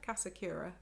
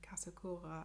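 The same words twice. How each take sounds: First: The name is said with English-style pronunciation. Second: The name is said with German-style pronunciation. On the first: "with the anglicised pronunciation" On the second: "I think, in, in German, maybe Dutch pronunciation"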